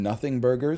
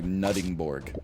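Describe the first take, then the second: First: The name is said as spelled, Nothing Burger. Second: The name is said clipped, like Nuttingborg. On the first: The speaker calls it wrong. "it's spelled Nothing Burger" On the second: The speaker calls it right. "actually, it's pronounced like Nuttingborg"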